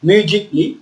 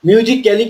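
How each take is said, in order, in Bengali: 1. শেষ অংশটা সংক্ষেপে ছোট 'klee' হিসেবে বলা হয়। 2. শেষ অংশটা পূর্ণ 'cally' হিসেবে বলা হয়। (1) "মিউজিক্যালি না বলে কি বলছি" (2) "মিউজিক্যালি কিন্তু আমরা বলবো না"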